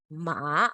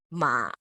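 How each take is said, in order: First: MA rising straight upwards; second tone. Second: MA dropping low, then up a bit; third tone. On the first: Teacher contrasting second tone, going upwards. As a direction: lift MA up at the end. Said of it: "Second tone is ma". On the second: Teacher contrasting third tone, low and dipping. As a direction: dip MA down deep and back. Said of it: "third tone is ma". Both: Shown as a demonstration.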